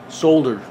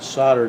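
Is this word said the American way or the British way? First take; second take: British; American. First: It is said with British pronunciation. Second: It is said with American pronunciation. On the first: "I soldered it for our English friends. That's how they pronounce it" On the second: "that's how us Americans pronounce it"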